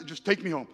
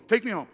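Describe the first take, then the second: First: Said in the usual way. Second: Insistent demand. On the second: Retold or imitated. Bob repeats, louder and firmer.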